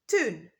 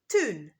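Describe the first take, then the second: Both takes have the same delivery.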